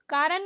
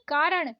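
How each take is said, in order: First: कारण ending in plain न; wrong dental N. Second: कारण ending in curled-tongue ण; correct retroflex ण. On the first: Teacher showing learners the mistake, dental-N कारण. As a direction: say कारण as कारन. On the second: Teacher correcting learners, retroflex कारण. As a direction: curl back for ण in कारण. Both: Shown as a demonstration. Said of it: "नहीं".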